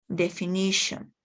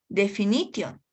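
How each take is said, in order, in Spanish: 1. Se dice con vocales y acento ingleses. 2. Se lee letra por letra, al estilo español. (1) "sino definition" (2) "no vamos a poder leer definition"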